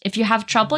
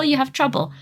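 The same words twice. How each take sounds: First: Said in the usual way. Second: "you" hit higher and falling; stress on YOU. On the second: Retold or imitated. Nurse repeating herself to the patient, stress on "you". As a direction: lean hard on "you".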